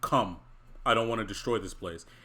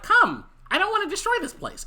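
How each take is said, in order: First: The voice sounds deeper and older. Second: The voice sounds higher and younger. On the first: The character sounded like a different age. The speaker calls it right. "he definitely sounded older" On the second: The character kept his usual age. The speaker calls it wrong. "It wasn't like that"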